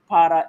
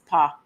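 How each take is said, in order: First: The word is said in full, two syllables. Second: The word is cut short to one syllable.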